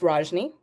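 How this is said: The name is said in an American way.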